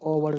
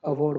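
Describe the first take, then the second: First: The first vowel sounds like 'o'. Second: The first vowel sounds like 'a'. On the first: The speaker calls it wrong. "ओवर्ड नहीं बोलेंगे" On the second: The speaker calls it right. "अवॉर्ड बोलेंगे"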